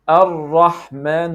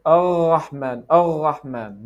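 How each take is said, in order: First: 'Ar-Rahman' slow and loud, tongue-tip R; correct tapped R. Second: 'Ar-Rahman' with a throaty French R; French throat R. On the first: Teacher modelling the right way, tongue-tip R. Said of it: "It is". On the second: Teacher showing what not to do, French R. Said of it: "It is not from here". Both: Shown as a demonstration.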